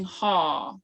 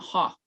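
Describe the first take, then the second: First: "ha" as a long, held "haaw"; drawn out. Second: "ha" cut short, brief vowel; not drawn out. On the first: Teacher showing how to say yes, long drawn-out vowel. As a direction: extend the vowel of "ha". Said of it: "you draw that out". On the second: Teacher showing the wrong way, short vowel. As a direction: say "ha" short, without lengthening. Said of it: "it's not". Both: Shown as a demonstration.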